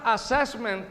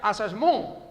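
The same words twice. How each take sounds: First: The word is pronounced the English way. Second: The word is pronounced the French way. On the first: "que aquí la pronunciamos como en inglés" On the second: "se originó en francés. Así es que realmente se pronuncia"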